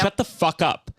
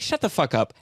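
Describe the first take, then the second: First: It is said in a genuinely angry tone. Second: It is said in a joking, playful tone. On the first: The anger is real and it stops being fun. "something that changes in my tone" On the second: It is a joke the audience can laugh at. "And it's funny"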